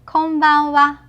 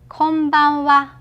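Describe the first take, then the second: Both takes have the same delivery.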